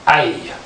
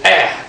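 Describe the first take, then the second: First: The letter is said as its full name. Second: The letter is said as a short vowel sound. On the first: This is the name of the letter. The speaker calls it wrong. "not as a" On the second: This is the sound the letter makes in words. The speaker calls it right. "they read the word as eh"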